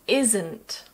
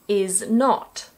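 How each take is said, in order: First: It is said as one contracted word. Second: It is said as two full words.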